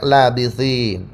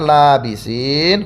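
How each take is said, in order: First: The first vowel is kept short. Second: The first vowel is held long. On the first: This follows the second reading tradition. "lamnya pendek" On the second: This follows the first reading tradition. "lam yang dimadkan"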